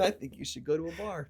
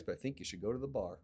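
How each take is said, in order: First: "bar" landed firmly, slightly higher and fuller; emphatic repeat. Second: Rattled off fast and dropping soft; quick offhand quote. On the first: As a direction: repeat it insisting you really mean it. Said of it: "I'm not kidding". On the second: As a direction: toss the advice away quickly, trailing quieter. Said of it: "He goes". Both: Retold or imitated.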